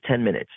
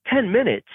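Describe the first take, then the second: First: Said in the usual way. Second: High, incredulous echo of "Ten minutes"; retold disbelief. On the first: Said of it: "He says". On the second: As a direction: throw "Ten minutes" back as a high, stunned question. Echoes the director's answer in disbelief.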